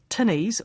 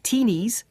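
First: It has a short 'i' vowel, like 'tin'. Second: It has a long 'ee' vowel, Australian style.

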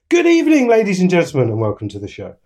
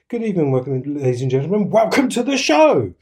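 First: It does not start low and rise. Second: It starts very low and then rises.

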